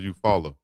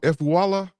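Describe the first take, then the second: First: The vowels blend in the usual local way. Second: Each vowel in the name is pronounced separately.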